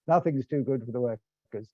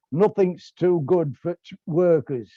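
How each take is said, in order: First: Said in the usual way. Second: A hammed-up Yorkshire accent, a little higher and louder; proud working-class Yorkshire voice, half-hearted; Yorkshire accent attempt. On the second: The unionist at the Ritz answering the Tory, in a Yorkshire accent. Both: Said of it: "that was an attempt at a Yorkshire accent".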